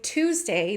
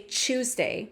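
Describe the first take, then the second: First: The word starts with a plain t sound. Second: The word starts with a ch sound. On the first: "instead of saying" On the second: "they'll say"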